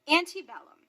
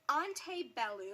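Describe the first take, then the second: First: The word is given an English pronunciation. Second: The word is given a Latin pronunciation. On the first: "using the anglicized pronunciation because that is how you will hear it" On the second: "That's how you would say it in Latin"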